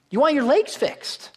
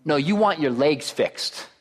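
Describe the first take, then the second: First: High-pitched, insistent repeat of the obvious; emphatic repeat. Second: Said in the usual way. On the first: Acted. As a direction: lift the whole line high to drive it home.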